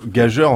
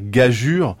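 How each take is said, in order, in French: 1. Le mot se termine par un son 'jeur'. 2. Le mot se termine par un son 'jure'. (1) "On utilise par exemple le mot gageur" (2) "il faudrait le dire gageure"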